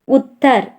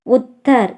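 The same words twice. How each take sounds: The two takes are said the same way.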